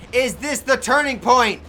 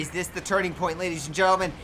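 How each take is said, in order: First: Slow, loud, high dramatic question; dramatic announcer. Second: Said in the usual way. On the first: Shown as a demonstration. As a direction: build suspense like a ring announcer.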